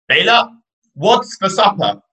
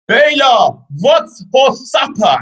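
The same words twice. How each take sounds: First: It is said louder than normal. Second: It is screamed at full volume. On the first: "Say it louder" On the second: "going to have to scream"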